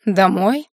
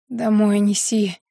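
First: Questioning rise, mildly astonished; drawn-out puzzled question; surprised drawl. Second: Slow, drawn-out order; level, laboured request; weak demand. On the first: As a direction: echo it back in disbelief. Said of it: "удивлённо протянул оборотень". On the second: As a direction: tell him wearily, dragging the words. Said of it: "прохрипела я". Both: A narrator's reading.

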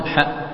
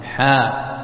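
First: حاء clipped off quickly; cut short. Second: حاء with the aa held for two beats; حاء drawn long and even; natural madd. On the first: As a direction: say حاء with a short, abrupt vowel. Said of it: "وتقطعها بسرعة". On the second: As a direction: stretch out the vowel of حاء. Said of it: "حركتين". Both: Shown as a demonstration.

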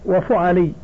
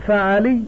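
First: وفعلي as wa-fu-a-lee; rounded "fu" in وفعلي, wa-fu'alī; damma on the fa. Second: فعلي as fa-a-lee; fatha on first syllable. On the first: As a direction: say وفعلي with "u" after the f. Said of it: "بضم الفاء وفتح العين". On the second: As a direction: say فعلي with "a" after the f. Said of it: "بفتح عينه". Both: Shown as a demonstration.

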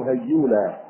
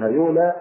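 First: هيولى with a geminated, held y; doubled ya. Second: هيولى with a single, short y sound; light ya. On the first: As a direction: say هيولى as hay-yuula, leaning on the double y. (هيولى بياء مشددة) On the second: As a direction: say هيولى as ha-yuula, no doubling. (هيولى بياء مخففة) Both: Shown as a demonstration. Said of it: "بضم الياء مخففة أو مشددة".

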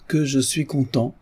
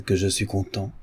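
First: Joyful exclaim. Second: Said in the usual way. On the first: Acted. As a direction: let the repeat burst out. Notary repeats his joy.

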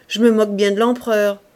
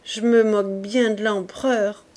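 First: Louder scornful "Je me moque bien de l'empereur", stress on "me"; quoting a man's loud, scornful dismissal of the emperor; defiant retort. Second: Repeating the scandalous phrase back in a dismayed voice. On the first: Retold or imitated. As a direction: throw out the insult to the emperor with contempt. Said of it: "ce malheureux a répondu". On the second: A narrator's reading. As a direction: repeat the words in shocked disbelief. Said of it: "d'un air consterné".

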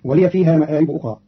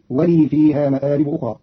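First: Said in the usual way. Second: "ولي" said wa-lii, long i with no final a; silent-vowel ya. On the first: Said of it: "قرأ قالون كلمة ولي". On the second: Shown as a demonstration. Teacher showing Qalun's reading, "ولي" pronounced wa-lii. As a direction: hold the ya of "ولي" as a long i into "فيها". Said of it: "بإسكان ياء".

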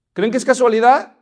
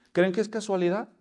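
First: Louder question, rising on casualidad; loud repeat. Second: Said in the usual way. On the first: Shown as a demonstration. Preacher repeats the question loudly to the congregation. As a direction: push the question harder.

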